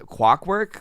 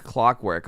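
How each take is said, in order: First: Clockwork tripped over, its opening muddled, rising in question; tongue-tied slip. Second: Said in the usual way. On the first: Real, not acted. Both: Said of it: "Give me a break".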